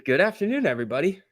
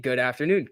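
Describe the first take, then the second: First: Cheery greeting. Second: Said in the usual way. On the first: Real, not acted. Greets the whole chat.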